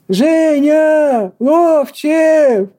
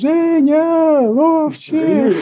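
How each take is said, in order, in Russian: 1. Звучит как призыв найти потерявшегося человека. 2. Звучит как низкое, торжественное радиообъявление. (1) "Как будто где-то потерялся человек" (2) "Левитановским таким голосом"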